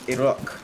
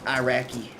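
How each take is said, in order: First: It is pronounced the way local people say it. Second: It is pronounced with an American pronunciation. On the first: The speaker calls it right. "if you ask them, it's Iraq" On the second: The speaker calls it wrong. "as they say in America"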